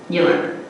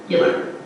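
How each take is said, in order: The two takes are said the same way.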